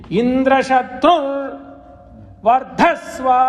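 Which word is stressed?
Shatru. The higher pitch is on Shatru.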